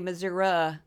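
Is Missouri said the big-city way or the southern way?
southern. Pronounced the way southern Missouri speakers say it. "People in the southern part of that state say Missouri"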